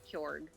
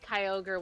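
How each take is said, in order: First: The name is pronounced in a weird, altered way. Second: The name is pronounced the usual way.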